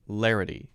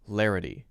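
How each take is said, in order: First: The middle consonant is a very light tap. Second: The middle consonant is a very light tap.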